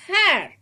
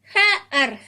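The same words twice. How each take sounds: First: "hair" joined in one falling syllable; blended. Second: "hair" split as "ha - ar"; sounded out. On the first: Teacher reads for children to follow, "hair" blended. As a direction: say "hair" whole, high then dropping. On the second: Teacher reads for children to follow, "hair" sounded out. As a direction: break "hair" into two separate sounds. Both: Shown as a demonstration. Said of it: "I'll read this".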